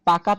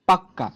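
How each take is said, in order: First: The middle k sound is short and single. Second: The middle k sound is doubled and held longer. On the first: Ripe mangoes, said plainly without emphasis. "পাকা শব্দটা যতটুকু না জোর দিয়ে বোঝাচ্ছে" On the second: All the mangoes must be fully ripe, emphatically. "কোনো কথায় জোর দেওয়ার প্রয়োজন হলেই তা হচ্ছে ব্যঞ্জনদ্বিত্বতা"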